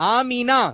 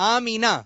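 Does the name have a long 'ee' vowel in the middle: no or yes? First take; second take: yes; yes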